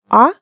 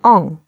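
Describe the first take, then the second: First: The vowel is plain, with no nasal sound. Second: The vowel is nasal, through the nose. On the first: "Сначала попробуйте произнести обыкновенный звук «а»" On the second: "как бы слегка зажав нос"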